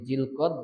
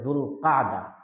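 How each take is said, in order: First: The name is said in two syllables. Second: The name is said in three syllables. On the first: This is the distorted local form. The speaker calls it wrong. "আমরা বাংলায় বলি জিলকদ" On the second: This is the original Arabic form. The speaker calls it right. "আরবিতে জুল কাদা"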